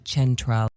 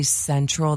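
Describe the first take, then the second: First: It is said with an Italian accent. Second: It is said with an American accent. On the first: "they say central" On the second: "we would say central"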